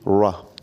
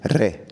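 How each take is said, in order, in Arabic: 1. الـ r بتتقال مع ضم خفيف للشفايف. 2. الـ r تُنطق بنقرة خفيفة، زي الراء العربي. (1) "قول عليه را" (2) "ما تقولش عليه را"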